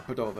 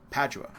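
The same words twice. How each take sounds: First: Padova said the Italian way; Italian-style Padova in place of English Padua; Italian name. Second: Said in the usual way. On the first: Shown as a demonstration. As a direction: give Padova its Italian pronunciation, stressed on the first syllable. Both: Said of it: "or how you wanna say it".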